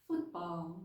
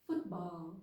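No difference in how they are said.

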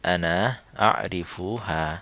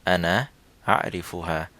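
Both takes have the same delivery.

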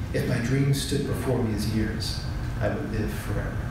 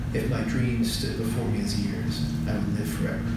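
No difference in how they are said.

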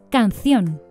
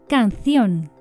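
The two takes are said the same way.

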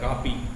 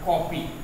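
First: The first vowel is an open, unrounded 'aa'. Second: The first vowel is a rounded 'aw' sound. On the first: The speaker calls it wrong. "अगर ऐसे लिखेंगे तो कापी हो जाएगा" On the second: The speaker calls it right. "कापी से कॉपी हो गया, जो कि सही उच्चारण है"

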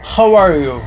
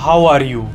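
First: It is said in an American accent. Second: It is said in an Indian accent. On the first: "America के लोग बोलेंगे" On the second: "India में बोला जाता है"

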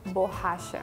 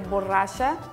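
First: The double R sounds like an English H. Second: The double R is a rolled R sound. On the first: "the double R has the ha sound, the H sound in English" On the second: "instead of borracha"

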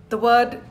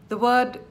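Both takes have the same delivery.

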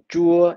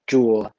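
First: The pitch stays level across the syllable. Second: The pitch falls low across the syllable. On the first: It means sour. "it means sour" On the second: It means a Buddhist pagoda. "it means a Buddhist pagoda"

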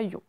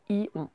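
First: The sound is said quickly as one syllable. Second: The sound is split into two separate syllables. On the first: The speaker calls it right. "On le dit tout de suite comme ça" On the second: The speaker calls it wrong. "On n'a pas besoin de dire ion"

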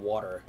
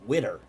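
First: The first vowel sounds like the vowel in 'wah'. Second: The first vowel sounds like the vowel in 'wit'. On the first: This is the usual way to say it. "instead of water" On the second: This is how a kid from Philadelphia said it. "He said witter, WITER, instead of water"

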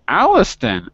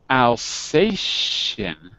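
First: The middle consonant is a plain t sound. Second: The middle consonant is an sh sound. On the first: The speaker calls it wrong. "Alistan? Oh, wait a second" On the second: The speaker calls it right. "When you see T-I in an English word, it's pronounced like a sh"

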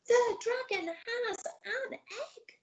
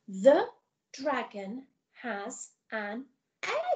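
First: It is said in a really excited voice. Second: It is said in a plain, calm voice.

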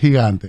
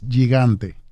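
First: It is said with the local Dominican pronunciation. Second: It is said with the original Corsican pronunciation. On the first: This is how people in the Dominican Republic say it. "el dominicano es gigante" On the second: This is the family's original pronunciation. "la pronunciación es gigante"

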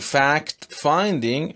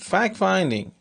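First: The t at the end of fact is pronounced. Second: The t at the end of fact is dropped. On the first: "Instead of saying" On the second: "I said fact finding"

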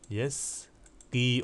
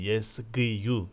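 First: The word ends in a plain i sound. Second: The word ends with an added yu sound. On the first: The speaker calls it right. "ya hareketsizdir" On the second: The speaker calls it wrong. "kesreden sonra zammeye çıkmak dile ağır"

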